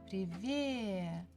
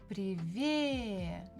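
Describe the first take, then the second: Both takes have the same delivery.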